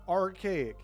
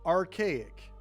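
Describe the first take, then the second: First: It is said with an American accent, with R. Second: It is said with an American accent, with R.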